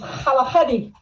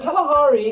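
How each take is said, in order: First: The name is said with Tswana sounds. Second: The name is said with English sounds.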